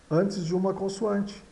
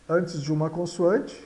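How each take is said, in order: Both takes have the same delivery.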